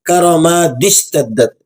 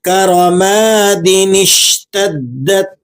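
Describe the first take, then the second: First: The d runs straight into sh, no n. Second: An added n sound links into the sh. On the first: The speaker calls it wrong. "اس طرح سے پڑھ کر غلطی کر جاتے ہیں" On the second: The speaker calls it right. "بالکل ٹھیک ہو گیا"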